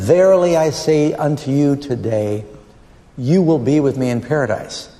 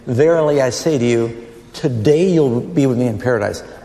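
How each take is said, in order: First: The pause comes after the word today. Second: The pause comes before the word today.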